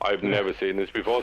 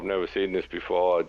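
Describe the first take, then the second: First: It sounds happy and excited. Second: It sounds worried and gloomy.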